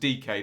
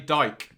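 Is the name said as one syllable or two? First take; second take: two syllables; one syllable. First: The name is said as two syllables. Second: The name is said as one syllable. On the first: The speaker calls it right. "Pronounced D K" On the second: The speaker calls it wrong.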